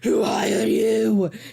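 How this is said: It is said in a deep, gravelly put-on voice.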